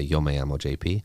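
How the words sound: It is said in a Mexican Spanish accent. "like in Mexico, I would say"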